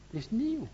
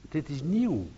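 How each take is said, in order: First: "nieuw" lifted much higher, softer and tender; "nieuw" said high and soft as a gift; emphasis on nieuw. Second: Said in the usual way. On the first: Shown as a demonstration. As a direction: set "nieuw" apart, high and hushed.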